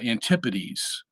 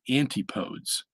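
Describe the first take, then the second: First: The word is said in its usual blended form. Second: The word is split into anti and podes. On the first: "the pronunciation of that word kind of, uh, obscures it" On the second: "if you were to be crude, you could say"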